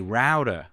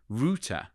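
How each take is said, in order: First: It is said with an American pronunciation. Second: It is said with a British pronunciation. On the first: This is how listeners in America expect it. "They'll say router" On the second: This is the speaker's own natural way. "I want to say router"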